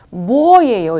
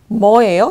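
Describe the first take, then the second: First: Every syllable is pronounced fully and precisely. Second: The syllables are blended together loosely. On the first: "이렇게 정확하게 발음 안 하죠" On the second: "이렇게 들리죠?"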